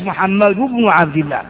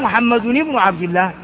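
First: Muhammad ends with no n sound before bin. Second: Muhammad ends with an n sound before bin. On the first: The speaker calls it right. "التنوين يجب حذفه" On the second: The speaker calls it wrong. "ما نقول محمد بن عبد الله"

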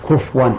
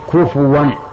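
First: The f has no vowel after it. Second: The f is followed by a short u vowel. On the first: The speaker calls it wrong. "كفوا سكن الفاء، هذا خطأ" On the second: The speaker calls it right. "بل نقول كفوا هذا بالواو"

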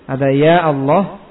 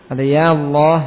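The two takes are said the same way.

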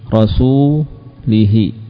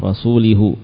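First: The final pronoun vowel is an 'i' sound. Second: The final pronoun vowel is a 'u' sound. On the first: The speaker calls it right. "kalau sebelumnya kasrah jelas di kasrah" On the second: The speaker calls it wrong. "Tidak di dhammah"

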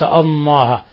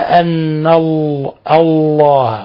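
First: The l sound is replaced by n. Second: The word keeps its l sound. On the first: The speaker calls it wrong. "بعض الناس يقلبها نون" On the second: The speaker calls it right. "لاحظوا لفظ الجلالة أن الله"

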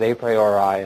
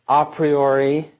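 First: It is pronounced the anglicized way. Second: It is pronounced the classical Latin way. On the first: "or you can pronounce it" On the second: "I tend to pronounce it the more authentically Latin way"

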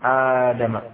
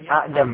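First: The first vowel is drawn out long. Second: The first vowel is short, with two glottal stops. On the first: This is the form actually used. "Jadi dipanjang Adam" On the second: This is the original underlying form. "Aslinya Adam"

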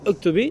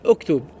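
First: The word ends on an added i vowel. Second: The word ends on a consonant sound. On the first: The verb is linked to the next word. "Si tu veux lire directement" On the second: The verb stands alone in its base form. "Sinon, c'est oktoub, fi'l amr"

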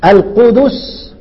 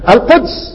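First: A u vowel follows the d: qudus. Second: No vowel follows the d: quds. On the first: This is the heavy form read with damma. "يعني اصل هي ايه ثقيلة؟" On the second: This is the light form read with sukun. "القدس أيهما أخف في القراءة؟"

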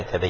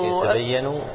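First: The final n carries no vowel at all. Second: The final n carries a short u vowel. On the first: The speaker calls it right. "ولا سكون؟" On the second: The speaker calls it wrong. "ضم على النون؟"

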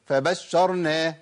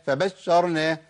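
Both takes have the same delivery.

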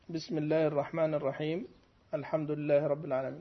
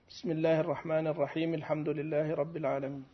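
First: There is a pause before al-hamdu. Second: It runs straight into al-hamdu without pausing. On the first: The basmala is recited as a separate unit. "يعني تقف عليهما" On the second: The basmala is joined to the start of the recitation. "ووصل البسملة بأول القراءة"

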